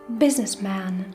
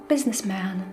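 Both takes have the same delivery.

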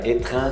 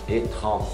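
First: The first vowel is a clear E sound. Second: The first vowel sounds almost like O. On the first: The speaker calls it wrong. "Não é étran, não" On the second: The speaker calls it right. "É quase um O"

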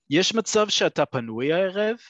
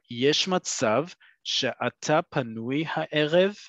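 First: It is said at normal speed. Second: It is said more slowly.

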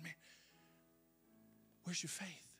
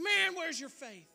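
First: It is said in a gentle, kind tone. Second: It is said in a harsh, scolding tone.

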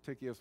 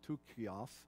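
First: The name is said with an English pronunciation. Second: The name is said with a Greek pronunciation. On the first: "way I'd say it English" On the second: "in more of a Greek pronunciation"

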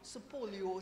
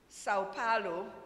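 First: The name has a Brazilian Portuguese pronunciation. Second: The name has an English-style pronunciation. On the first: This is how people in Brazil say it. "if you want to sound like them in Brazil, you say Supolio" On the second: This is how people locally say it. "In this part of the globe, we say Sao Paulo"

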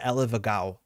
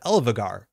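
First: The word ends with an 'ow' sound. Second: The word ends with an 'ar' sound. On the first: The speaker calls it right. "I think it's close to Elevagao" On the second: The speaker calls it wrong. "instead of Elevagar"

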